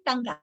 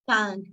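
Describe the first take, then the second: First: The word ends with an added vowel sound. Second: The word ends with the ng sound. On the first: The speaker calls it wrong. "Do not say tanga" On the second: The speaker calls it right. "Is tongue"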